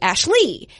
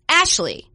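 First: The stress is on the second syllable. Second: The stress is on the first syllable. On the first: "lowercase Ash, capitalized L-E-E" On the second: "capitalized A-S-H dash L-E-E, lowercase"

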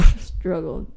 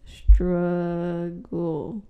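First: The word is said at normal speed. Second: The word is said slowly and drawn out.

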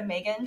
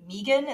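First: The name is said as plain 'Megan'. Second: The name is said with 'three' in it. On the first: "instead of M3GAN" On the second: "which I've taken to saying M3GAN ... just because of the three"

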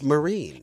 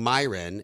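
First: The name is said like Marine. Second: The name is said like Myron. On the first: The speaker calls it right. "So it's Marine" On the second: The speaker calls it wrong. "I've been saying her name wrong"

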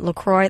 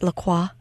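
First: The name is said with English pronunciation. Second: The name is said with French pronunciation.

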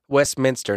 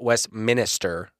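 First: The middle syllable has a short vowel. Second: The middle syllable has a long 'i' vowel. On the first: The speaker calls it right. "it's Westminster" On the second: The speaker calls it wrong.

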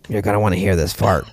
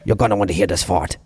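First: A squawky bird voice with no added accent. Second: A squawky bird voice with a heavy Austrian accent.

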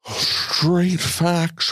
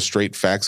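First: It is said in a put-on character voice. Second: It is said in his normal speaking voice.

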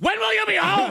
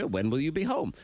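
First: It is asked in an angry, jealous way. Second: It is asked in a calm, friendly way.

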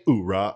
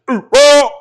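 First: The word is said flatly, without force. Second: The word is shouted loudly with force. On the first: The speaker calls it wrong. "you certainly can't say it like that" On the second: The speaker calls it right. "It's oorah!"

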